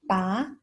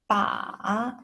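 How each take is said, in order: First: The pitch rises from mid to high. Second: The pitch dips low, then rises. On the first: "Second tone, the rising tone" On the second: "Third tone, the falling rising tone"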